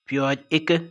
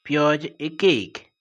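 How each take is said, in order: First: The pronoun is said in a shortened form. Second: The pronoun is said in its full form.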